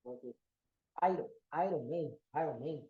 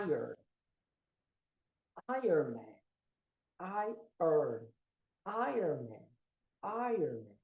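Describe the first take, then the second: First: "Iron" as "eye-ron" in "Iron Man"; low, read "Iron" as spelt, r before the o; common mispronunciation. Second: "Iron" as "eye-urn" in "Iron Man"; low, drawn-out "Iron", the r after the vowel; correct pronunciation. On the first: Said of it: "Muita gente fala". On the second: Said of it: "a pronúncia é". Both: Shown as a demonstration.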